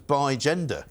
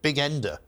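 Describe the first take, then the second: First: The word is split before the g sound. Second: The word is split after the g sound. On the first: The speaker calls it right. "it turns out that was bi gender" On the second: The speaker calls it wrong. "this was how you pronounce it"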